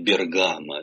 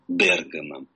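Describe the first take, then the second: First: The stress falls where Russian speakers usually place it. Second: The stress falls where Italian speakers place it. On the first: "Мы привыкли вслед за очень популярным фильмом «Водевилем» говорить" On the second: "как в оригинале"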